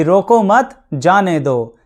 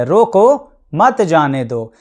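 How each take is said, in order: First: रोको मत said as one unit, pause, then जाने दो; group रोको with मत, then a separate जाने दो; pause after मत. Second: रोको alone, a clear pause, then मत जाने दो; pause after रोको. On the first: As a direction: break the phrase after मत, "don't stop him, let him go". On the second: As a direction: stop on रोको, then run मत जाने दो together. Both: Shown as a demonstration. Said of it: "आप कहाँ चुप हुए और कहाँ पर आपने".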